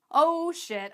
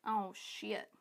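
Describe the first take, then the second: First: Higher, louder "oh shit"; louder mock alarm. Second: Hushed mock realization. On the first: Coach voices most people realizing they need a system, louder mock alarm. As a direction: act out the realization hitting full on. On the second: Coach voices most people realizing they can't keep track, hushed dismay. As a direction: act out a quiet, sinking realization.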